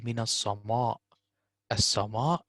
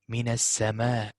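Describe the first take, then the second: First: "as-sama" with a dark heavy alif, "as-sawmaw"; wrong as-sama. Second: "Min as-sama" with light thin vowels; right as-sama. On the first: Tutor to student, showing the heavy wrong alif. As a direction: show the darkened "as-sama" as the error. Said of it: "not good". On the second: Tutor to student, modelling the thin alif. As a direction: keep "as-sama" thin and bright. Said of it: "Don't say". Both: Shown as a demonstration.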